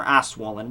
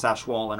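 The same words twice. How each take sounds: First: "Aswollen" with a plain S, no SH; alternate pronunciation. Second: "Ashwollen" with a soft SH after the A; alternate pronunciation. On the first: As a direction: say "Aswollen" starting like "ass". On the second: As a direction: say "Ashwollen" starting like "ash". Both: Shown as a demonstration. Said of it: "how I pronounce".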